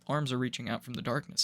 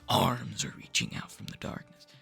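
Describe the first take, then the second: First: It is said flatly, in a deadpan tone. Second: It is said dramatically, trying to sound scary. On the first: The teller is just stating how things are. The speaker calls it right. "you're just like" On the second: The teller is trying to frighten the listener. The speaker calls it wrong. "It sounds like you're trying to scare me"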